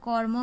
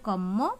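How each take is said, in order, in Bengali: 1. 'র' ধ্বনিটি 'ম'-এর আগে আসে। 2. 'ম' ধ্বনিটি দ্বিত্ব হয়, কোনো 'র' নেই।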